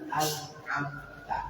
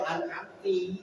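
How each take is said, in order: First: The word ends with an 'a' vowel. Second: The word ends with an 'i' vowel. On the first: The one addressed gave the favour. The speaker calls it right. "itu kan yang benar" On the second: A woman addressed gave the favour. The speaker calls it wrong. "itu juga bisa berubah makna. Kau perempuan"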